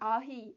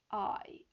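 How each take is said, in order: First: It breaks into two separate syllables. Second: It glides smoothly as one sound. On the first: The speaker calls it wrong. "아히 이렇게 하시는데 그게 아니잖아요" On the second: The speaker calls it right. "I 이렇게 따라 해보세요"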